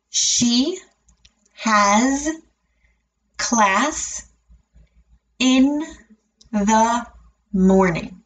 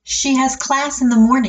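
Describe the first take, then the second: First: The sentence is said very slowly, word by word. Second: The sentence is said at a natural speed. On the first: "break it down and say it very slowly" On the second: "and then at a natural speed again"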